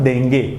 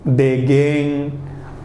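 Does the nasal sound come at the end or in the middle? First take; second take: middle; end. First: The nasal sound comes in the middle. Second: The nasal sound comes at the very end. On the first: The speaker calls it right. "होता है देंगे" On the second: The speaker calls it wrong. "देगेंग कुछ होता नहीं है"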